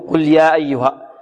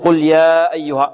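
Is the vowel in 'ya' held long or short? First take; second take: short; long. First: The vowel in 'ya' is held short. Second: The vowel in 'ya' is held long. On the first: The speaker calls it right. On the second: The speaker calls it wrong.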